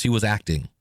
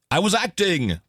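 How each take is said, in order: First: Said in the usual way. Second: Higher mock English accent on "I was acting!"; a light English accent, exclaimed with "was" leaned on; quoting the English voice with a playful English accent. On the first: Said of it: "this English accent came out". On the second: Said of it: "this English accent came out of the speakers".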